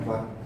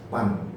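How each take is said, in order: First: The name starts with a V sound. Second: The name starts with a P sound. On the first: "you know Van" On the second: "orang Batak nggak bisa mengucapkan huruf V"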